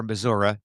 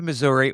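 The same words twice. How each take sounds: First: "Missouri" ending in "-uh"; local Missouri pronunciation. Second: Said in the usual way. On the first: Shown as a demonstration. Host offers both versions of the state, "Missouri" ending in "-uh". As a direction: say "Missouri" as "muh-ZOR-uh". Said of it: "where you are and who you're talking to". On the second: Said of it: "depending on, uh, where you are".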